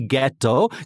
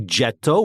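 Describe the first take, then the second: First: It begins with a hard g sound. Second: It begins with a soft g sound. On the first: The speaker calls it right. "has that G sound" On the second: The speaker calls it wrong. "we don't say Getto"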